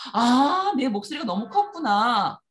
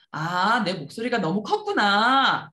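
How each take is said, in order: First: A loud, slow, staged apology from dad; louder on purpose. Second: Said in the usual way. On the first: Shown as a demonstration. Dad owning up loudly in front of the child. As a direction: boom it out so the child hears. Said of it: "아빠가 일부러 더 큰 목소리로". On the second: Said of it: "옆에서 아빠가".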